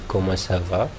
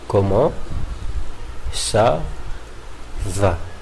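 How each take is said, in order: First: The words flow together as one phrase. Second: Each word is said separately, one by one. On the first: The speaker calls it right. "comme vous disiez comment ça va" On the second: The speaker calls it wrong. "vous n'allez quand même pas dire comment ça va"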